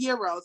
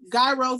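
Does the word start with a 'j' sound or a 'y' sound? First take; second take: Y sound; J sound. First: The word starts with a 'y' sound. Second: The word starts with a 'j' sound. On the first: "the proper pronunciation is Euro" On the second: "however you pronounce it"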